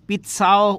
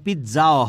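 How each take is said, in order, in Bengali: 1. শব্দটি 'ts' ধ্বনি দিয়ে উচ্চারণ করা হয়। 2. শব্দটি 'tz' ধ্বনি দিয়ে উচ্চারণ করা হয়। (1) "পিৎসাও হয় এটা উচ্চারণ" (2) "পিৎজাও হয়"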